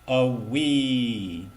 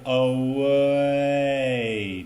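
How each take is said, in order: First: The first vowel is short, jumping quickly to ee. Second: The first vowel is held long, gliding slowly. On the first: The speaker calls it wrong. "not a wee" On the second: The speaker calls it right. "we say away"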